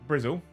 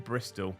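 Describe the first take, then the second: First: The word ends with a local 'zzle' sound. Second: The word ends with a clear standard 'tol' sound. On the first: The speaker calls it right. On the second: The speaker calls it wrong.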